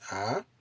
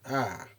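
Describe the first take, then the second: First: The pitch rises across the vowel. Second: The pitch falls across the vowel. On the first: "this is the ah, increasing intonation" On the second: "the decreasing intonation"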